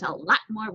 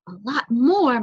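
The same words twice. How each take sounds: First: Said in the usual way. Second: "A lot more" louder, with MORE drawn out; marvelling repeat. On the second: A narrator's reading. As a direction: stretch and swell the word "more" in wonder. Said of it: "repeating as he sat down".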